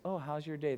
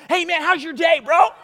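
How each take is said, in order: First: Mild small talk. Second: High, loud, hyped-up hello; passionate greeting. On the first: Showing how passionate people don't talk, subdued. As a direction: ask it with no enthusiasm at all. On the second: Passionate person greeting a friend, wildly excited. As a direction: blast the greeting out like a superfan. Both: Shown as a demonstration. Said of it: "they don't talk to you like this".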